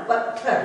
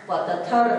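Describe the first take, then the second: First: पत्थर joined as pat-thar; short त sound. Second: पत्थर split as pa-ta-thar; full त sound. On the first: Teacher showing what the letters make, short-त pronunciation. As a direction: close quickly on त, then release थर in पत्थर. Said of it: "इसे हम लोग छोटा". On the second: Teacher showing the reading to avoid, full-त pronunciation. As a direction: give त its own vowel in पत्थर. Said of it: "पत्थर नहीं". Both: Shown as a demonstration.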